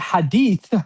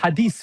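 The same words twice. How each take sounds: First: The final consonant is a th sound. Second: The final consonant is an s sound. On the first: The speaker calls it right. "It should be hadith with itha" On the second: The speaker calls it wrong. "People say hadith"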